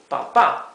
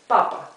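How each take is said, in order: First: The stress is on the last syllable. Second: The stress is on the first syllable. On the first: It means dad. "the accent is in the last syllable" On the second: It means potato. "the accent is in the first syllable"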